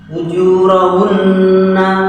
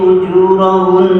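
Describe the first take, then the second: First: The pressed n is followed by a final vowel. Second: The word ends on a pressed n sound. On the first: The reading continues without stopping. "sama dua-duanya ditekan" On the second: The reading stops at this word. "sama dua-duanya ditekan"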